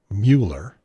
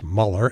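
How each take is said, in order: First: The name is said following its spelling. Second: The name is said unlike its spelling. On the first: Used on purpose to mispronounce his name. The speaker calls it wrong. "not Mueller" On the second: This is how the man says his own name. The speaker calls it right. "it's pronounced Mueller"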